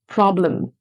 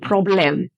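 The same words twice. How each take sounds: First: The second vowel is a reduced schwa. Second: The second vowel is a full vowel. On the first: The speaker calls it right. "No, it's problem" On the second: The speaker calls it wrong. "So you don't say problem"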